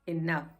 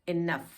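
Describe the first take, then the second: First: The second vowel is an 'uh' sound. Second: The same.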